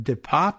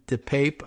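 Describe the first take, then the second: First: The name is said with a French-style vowel. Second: The name is said with an English-style vowel. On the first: "French pronunciation"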